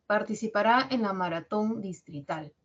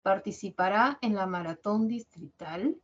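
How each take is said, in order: First: Enunciativa que cae en "distrital"; tono bajo. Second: Pregunta que sube en "distrital"; final ascendente. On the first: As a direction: baja la voz al final, en "distrital". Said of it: "Tono bajo". (entonación descendente, "distrital" hacia abajo) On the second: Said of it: "En la parte final sube". (entonación interrogativa, "distrital" hacia arriba) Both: Shown as a demonstration.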